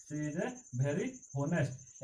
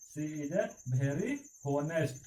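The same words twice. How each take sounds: First: Repeated very slowly, each word apart; slow dictation. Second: She is a very honest, read word by word very slowly; slow dictation. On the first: Teacher repeating the sentence very slowly for students. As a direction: say "she is a very honest" again at a crawl. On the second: Teacher dictating "She is a very honest" very slowly to students. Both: Shown as a demonstration. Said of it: "पूरा clear होगा".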